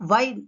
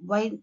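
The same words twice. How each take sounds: First: "wine" begun with V, as vine; "wine" with a clear V onset; V sound. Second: "wine" begun with a rounded W; "wine" with no teeth on the lip; W sound. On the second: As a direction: lips forward to start "wine". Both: Shown as a demonstration. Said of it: "sound also differs".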